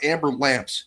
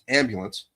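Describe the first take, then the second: First: The word is said like 'amber lamps'. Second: The word is said as standard 'ambulance'. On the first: The speaker calls it wrong. "It's it's not amber lamps" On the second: The speaker calls it right. "It's ambulance"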